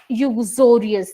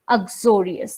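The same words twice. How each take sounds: First: The word begins with a 'yoo' sound. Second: The word begins with an 'uk' sound. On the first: The speaker calls it wrong. "the word starts from U, but never pronounce it uxorious" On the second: The speaker calls it right. "The correct pronunciation of this word is uxorious"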